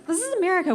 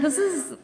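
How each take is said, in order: First: "America" pitched way up and stretched; exasperated stress on America. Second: Said in the usual way. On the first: Real, not acted. Comic telling the crowd about authentic food, high-pitched "America". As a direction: throw "America" high like an obvious punchline.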